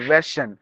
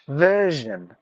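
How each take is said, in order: First: The middle consonant is a voiceless 'sh' sound. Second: The middle consonant is a voiced 'zh' sound. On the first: The speaker calls it wrong. "we replace the sound sh ... sometimes we say version ... Not like that" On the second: The speaker calls it right. "It should be je ... So you have to say"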